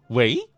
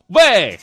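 First: The word is said with a rising pitch. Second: The word is said with a falling pitch. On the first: The speaker is a young man. "青年男子接电话的时候都是二声喂" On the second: The speaker is a middle-aged man. "中年男子呢都是四声喂"

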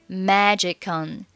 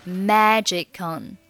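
The two takes are said the same way.

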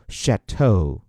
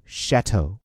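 First: The stress is on the last syllable. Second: The stress is on the first syllable. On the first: "念得更端着一点，你还可以把重音放在后面" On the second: "很有气质的把这个词念出来"

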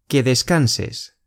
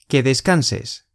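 The two takes are said the same way.

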